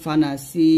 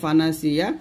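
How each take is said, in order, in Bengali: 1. শব্দটি দীর্ঘ 'si' ধ্বনি দিয়ে শেষ হয়। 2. শব্দটি পূর্ণ 'siya' উচ্চারণাংশ দিয়ে শেষ হয়। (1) "ওয়াকফ ধরলে হবে ফানাসি, সিতে আমরা এক টান দিব" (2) "তাহলে এখানে আছে ফানাসিয়া"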